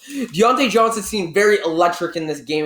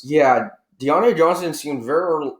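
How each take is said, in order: First: Said in the usual way. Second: Pen cap in mouth. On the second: Real, not acted. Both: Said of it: "I had my pen cap in my mouth".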